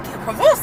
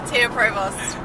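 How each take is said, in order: First: The name is said in a French accent. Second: The name is said in a plain accent. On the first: This is how people in France say it. "if I'm in France, they're all like" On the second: This is how the name's owner says it. "How do I pronounce it?"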